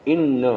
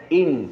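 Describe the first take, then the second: First: ان with a doubled n and final a; ان as two syllables, leaning on the double n before a short a; doubled noon, "inna". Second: ان with a closed final n; short ان, no vowel after the n; pronounced "in". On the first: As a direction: say ان as "in-na", holding the noon. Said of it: "نون پہ اب تشدید کے ساتھ زبر". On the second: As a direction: say ان as one syllable, "in", stopping on the noon. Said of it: "الف کے نیچے زیر نون پہ جزم". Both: Shown as a demonstration.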